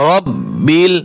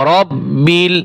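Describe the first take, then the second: Both takes have the same delivery.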